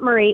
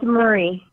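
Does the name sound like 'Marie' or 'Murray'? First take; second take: Marie; Murray. First: The name is said like 'Marie'. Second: The name is said like 'Murray'. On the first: The speaker calls it wrong. "It's not Marie" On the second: The speaker calls it right. "It's Murray. Like Bill Murray"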